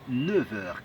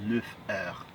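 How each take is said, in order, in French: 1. Le f se lie comme un son v. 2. Le f garde son son f. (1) "la liaison permet de dire" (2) "et non"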